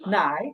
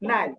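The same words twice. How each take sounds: First: The syllable has a dipping third tone. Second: The syllable has a light neutral tone. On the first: "কালো সিলেবলের উপরে আছে কি third tone" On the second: "neutral যেটা সেটা হবে নাই নাই"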